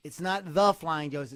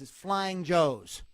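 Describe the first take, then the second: First: "the" punched loud in "the Flying Joes"; loud, corrective stress on "the". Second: "Flying Joes" loud, slow and emphatic; slow, loud correction landing on "Flying Joes"; stress on Flying Joes. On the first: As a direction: lean hard on the word "the". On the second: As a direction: spell it out slowly, punching "Flying Joes". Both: Shown as a demonstration. Correcting the band's name.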